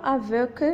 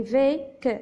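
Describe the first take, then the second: First: "avec" said as "a-veuk"; AVEC misread with EU. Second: "vec" said as "vek" with eh; VEC with open E. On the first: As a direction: say "avec" with a rounded eu in place of eh. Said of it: "on ne dit pas avec". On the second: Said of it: "on la prononce E, on dit vec". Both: Shown as a demonstration.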